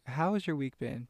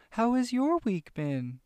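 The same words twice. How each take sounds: First: Said in the usual way. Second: High, slow, cheery cartoon-host voice; Dora voice. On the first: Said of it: "No, but really". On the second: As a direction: ask slowly and high like a kids' show host. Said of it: "I feel like Dora".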